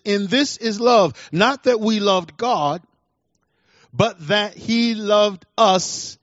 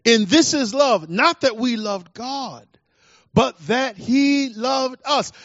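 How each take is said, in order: First: "loved" gets the main stress, "he" stays light; first reading with stress on loved. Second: "he" punched high and slow in "but that he loved us"; slow down and lean hard on "he"; emphasis on he. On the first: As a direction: read it with "loved" as the key word, slowing on "but that he loved us". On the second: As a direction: stress moves to "he", said higher and drawn out. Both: Shown as a demonstration. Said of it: "putting the emphasis where the emphasis is due".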